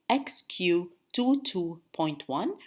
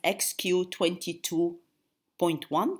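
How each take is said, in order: First: The 22 is read as separate digits. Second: The 22 is read as one number. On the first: The speaker calls it right. "which means region two, band two, subband one" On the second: The speaker calls it wrong. "you never pronounce it as X Q twenty-two point one. This is wrong"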